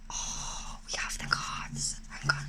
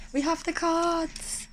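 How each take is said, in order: First: Hushed, unvoiced whisper of awe. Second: Fully voiced, high and drawn out; sing-song reveal, slow and higher; out of the whisper. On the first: Card reader showing viewers the new deck, whispering. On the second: Card reader re-announcing the deck to viewers, voiced high and slow. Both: Real, not acted. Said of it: "I don't know why I'm whispering".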